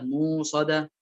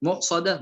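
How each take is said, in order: First: موصدة with long uu; hamza turned to waw in موصدة. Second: مؤصدة with a glottal stop; hamza sounded in مؤصدة. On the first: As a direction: lengthen the first vowel of موصدة, no stop. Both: Shown as a demonstration. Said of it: "الهمزة بالواو".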